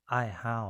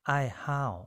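First: Said in the usual way. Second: Teacher's model of อ้ายห้าว; clear pronunciation. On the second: Shown as a demonstration. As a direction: model the word อ้ายห้าว for the learners, syllable by syllable. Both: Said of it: "อ้ายห้าว แปลว่างานอดิเรกนะครับ".

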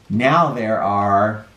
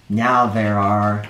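Both takes have the same delivery.

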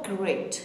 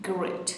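First: Great said slow and clear, drawn out; slow model word. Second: Said in the usual way. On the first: Shown as a demonstration. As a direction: model great slowly for learners. (آهسته و شمرده)

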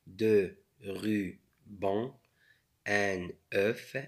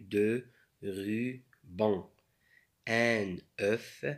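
No difference in how they are said.

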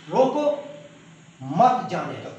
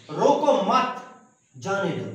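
First: روکو rising and cut off, a pause, then مت جانے دو falling; pause after روکو. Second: روکو مت as one unit, then a break before جانے دو; pause after مت. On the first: Teacher showing students the stop after روکو, a pause after روکو. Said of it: "ایک فکرہ ہے روکو ... فل سٹاپ لگایا گیا". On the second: Teacher showing students the moved stop, a pause after مت. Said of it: "یہ ہم نے ادھر لگایا". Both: Shown as a demonstration.

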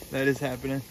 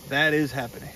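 The two takes are said the same way.

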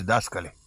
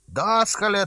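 First: Said in the usual way. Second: \"Dascăle\" yelled much higher and louder, mocking; loud taunting shout. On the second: A narrator's reading. Cheeky neighbour boy jeers the deacon, loud mocking shout. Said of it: "zise cu glas mare".

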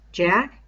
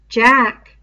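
First: Plainer voice with a questioning rise; Ralph, questioning. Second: Put-on louder, higher boyish voice, falling and final; Piggy, certain. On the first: Acted. Ralph asking Piggy whether he means Jack, rising. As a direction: ask it, a little unsure. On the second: Piggy confirming to Ralph that it is Jack, loud and sure. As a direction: state it flatly, in Piggy's voice.

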